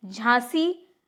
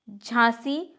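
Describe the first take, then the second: No difference in how they are said.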